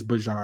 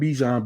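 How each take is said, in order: First: The first syllable sounds like 'bah'. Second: The first syllable sounds like 'bee'. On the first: This is how the person says his own name. The speaker calls it right. "you gotta say it right. It's Bajan" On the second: This is an accepted but not preferred form. The speaker calls it wrong. "he's cool if you call him Bijan"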